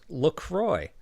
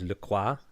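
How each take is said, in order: First: The name is said the American English way. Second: The name is said the French way. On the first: This is how the company itself says the name. "it is, in fact, and you can go to their website and learn this" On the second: This is how French speakers think the name should be said. "my Parisians did not like this, so their response was"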